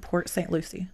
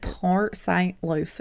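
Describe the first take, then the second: First: It is said in a plain accent. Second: It is said in a slow country accent.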